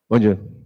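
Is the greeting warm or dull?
dull. It is said dully, without warmth.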